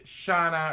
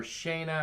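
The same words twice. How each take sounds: First: "shana" with an open ah, SHAH-na; first pronunciation variant. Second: "shana" with a long ay, SHAY-na; alternative pronunciation. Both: Shown as a demonstration. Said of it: "however you say it".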